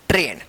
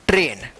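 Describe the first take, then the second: No difference in how they are said.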